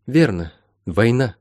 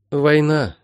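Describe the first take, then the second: First: Mildly stern confirmation; understated grim agreement. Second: Higher, exhaled realisation; small, dawning exhalation; breathed out. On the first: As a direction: confirm it soberly, falling at the end. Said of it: "сурово сказала средняя". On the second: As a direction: let the word out on a breath. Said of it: "выдохнула Молли". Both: A narrator's reading.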